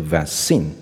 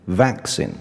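First: The stress is on the second syllable. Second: The stress is on the first syllable. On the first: The speaker calls it wrong. "不是vaccine" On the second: The speaker calls it right. "重音放在前面，变成vaccine"

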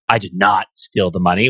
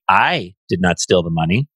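First: The stress falls on the word 'not'. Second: The stress falls on the word 'I'. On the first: The speaker indignantly denies taking it. "which is like indignation, right? No denial" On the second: Someone else took the money. "The money was stolen by someone else"

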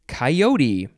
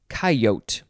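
First: It uses the general, non-Western pronunciation. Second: It uses the Western regional pronunciation. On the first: "It is coyote" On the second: "in the Western area, people say coyote"

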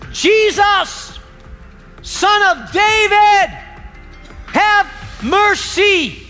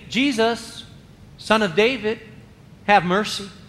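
First: It is shouted loudly. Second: It is said quietly.

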